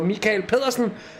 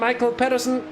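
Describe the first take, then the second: First: The first name has a Danish pronunciation. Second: The first name has an English pronunciation. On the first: The speaker calls it right. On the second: The speaker calls it wrong.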